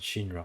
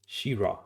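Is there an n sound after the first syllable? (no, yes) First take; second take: yes; no. First: It is said with an n after shi. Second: It is said with no n after shi. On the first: The speaker calls it wrong. "not Shinra. There's no N" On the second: The speaker calls it right. "Shira, not Shinra. There's no N"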